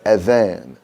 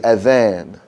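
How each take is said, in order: First: The middle consonant is a soft th sound. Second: The same.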